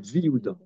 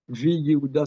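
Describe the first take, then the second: First: The 'ye' sound is dropped, merging into 'Viouda'. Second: The full 'Yehuda' is said after 'vi'. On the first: The speaker calls it right. "c'est Viouda" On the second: The speaker calls it wrong. "ça se dit pas"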